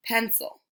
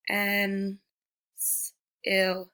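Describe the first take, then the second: First: Said in the usual way. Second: "pen, s-, il" in separate chunks, s held alone; sounded out. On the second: Shown as a demonstration. Teacher showing pupils C making the S sound, sounded out. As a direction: break pencil into "pen, s-, il" with pauses. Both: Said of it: "like in the word".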